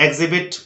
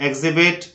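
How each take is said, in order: No difference in how they are said.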